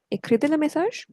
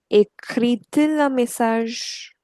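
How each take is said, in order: First: "écrit-il un message" quicker, higher, rising at the end; question intonation. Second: Slow, measured model sentence; slow modelling. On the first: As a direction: ask "écrit-il un message" briskly, lifting "message". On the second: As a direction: spell out "Écrit-il un message" slowly, word by word. Teacher models the inverted question. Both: Shown as a demonstration.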